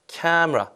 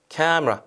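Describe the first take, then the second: No difference in how they are said.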